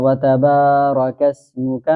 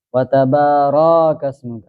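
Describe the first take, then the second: First: وتبارک said with a short ra, no stretch; correct short ra. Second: وتبارک said with the ra stretched long, wrongly. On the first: Teacher shows the correct short را in وتبارک. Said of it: "اس کو پڑھنا ہے". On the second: Teacher demonstrates the common mistake of stretching the را in وتبارک. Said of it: "حالانکہ یہ غلط ہے". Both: Shown as a demonstration.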